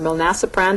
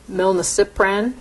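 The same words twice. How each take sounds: First: Milnacipran said mil-NASS-uh-pran; stress on second syllable. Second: Milnacipran said mil-nuh-SIP-ran; stress on third syllable. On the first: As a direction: say milnacipran with the stress on NA, short a as in "nap". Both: Shown as a demonstration. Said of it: "depending on how you wanna say it".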